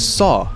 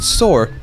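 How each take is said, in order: First: The word ends without an r sound. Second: The word ends with an r sound. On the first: The speaker calls it right. "The word is saw" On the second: The speaker calls it wrong. "If you pronounce it soar, that's wrong"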